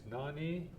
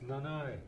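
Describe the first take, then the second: First: The word ends in an 'ee' vowel. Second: The word ends in an 'eye' vowel. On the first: "if you're in Masset, it's Nani" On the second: "with Skidegate, it's Nanai"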